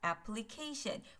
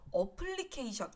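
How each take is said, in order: First: It is said with English stress and vowels. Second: It is said with Korean-style syllables and vowels. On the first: The speaker calls it right. "어플리케이션이 아니라 application" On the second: The speaker calls it wrong. "어플리케이션 자꾸 이렇게 얘기하시는 분들 많으신데 ... 없는 발음이에요"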